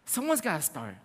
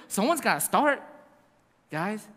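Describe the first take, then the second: First: Said in the usual way. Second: Light laughing push to get started. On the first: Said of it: "repeated plainly". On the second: Real, not acted. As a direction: chuckle while you urge them on. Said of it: "laughing urging".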